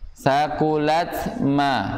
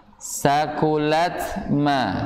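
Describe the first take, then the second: The two takes are said the same way.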